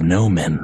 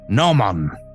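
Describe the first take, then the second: First: The word ends with a 'men' sound. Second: The word ends with a 'mon' sound. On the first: The speaker calls it wrong. "I'm pronouncing it incorrectly" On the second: The speaker calls it right. "I think is the actual pronunciation"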